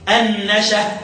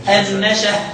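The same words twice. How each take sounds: The two takes are said the same way.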